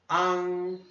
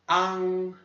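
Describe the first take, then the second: No difference in how they are said.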